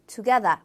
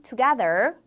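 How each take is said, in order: First: Together with no R, ending in a long ah; 영국식 together; British pronunciation. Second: Together with a rolled American R at the end; 미국식 together; American pronunciation. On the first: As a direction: drop the R in together, British style. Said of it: "영국 영어에서는 together". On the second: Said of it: "미국 영어에서는 together 굴려주고요". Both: Shown as a demonstration.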